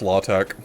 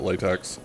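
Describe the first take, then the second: First: The word does not sound like rubber latex. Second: The word sounds like rubber latex. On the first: The speaker is being fussy or uppity. "If you're uppity, it's pronounced LaTeX" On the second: This is how most people say it. "Everyone pronounces it latex"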